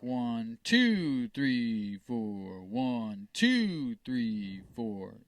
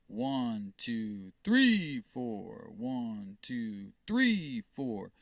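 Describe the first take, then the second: First: The stress falls on two. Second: The stress falls on three.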